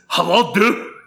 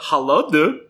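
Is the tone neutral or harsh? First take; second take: harsh; neutral. First: It is said in a harsh, angry tone. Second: It is said in a plain, neutral tone.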